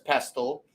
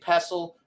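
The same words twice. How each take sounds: First: The T sound is pronounced in the middle. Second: The T sound is silent in the middle. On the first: The speaker calls it wrong. "it looks like it says pestle" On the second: The speaker calls it right. "but it's actually pestle"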